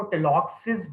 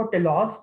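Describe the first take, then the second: First: टेलॉक्सिस with an added -is ending; longer pronunciation. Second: टेलॉक्स ending straight on the ks sound; shorter pronunciation. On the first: Teacher showing students the other reading, टेलॉक्सिस with a final -sis. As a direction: say टेलॉक्सिस, finishing on an extra "sis" syllable. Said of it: "कुछ लोग इसको टेलॉक्सिस भी पढ़ते हैं". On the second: Teacher showing students one accepted reading, टेलॉक्स with no extra ending. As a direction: say टेलॉक्स without a final -is. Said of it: "कुछ लोग इसको टेलॉक्स भी पढ़ते हैं". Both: Shown as a demonstration.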